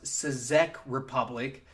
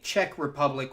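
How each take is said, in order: First: Czech starts with separate C and Z sounds. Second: Czech starts with a single ch sound. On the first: The speaker calls it wrong. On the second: The speaker calls it right.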